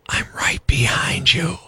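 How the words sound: It is said in a whisper. It sounds creepy. "but it's creepy when whispered"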